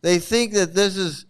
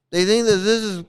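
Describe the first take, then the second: No difference in how they are said.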